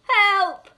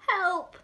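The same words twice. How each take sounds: First: It is said loudly. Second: It is said quietly.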